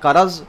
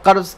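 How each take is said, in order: First: A vowel is inserted between the r and z. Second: The r and z come together without a vowel. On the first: The speaker calls it wrong. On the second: The speaker calls it right. "कर्ज़ के बजाय"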